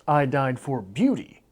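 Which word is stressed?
beauty. The stress is on the word beauty. There were other things one could die for. "there is some other option besides beauty for which to die"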